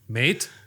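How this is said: It is said in a British accent. "Can I hear a British accent?"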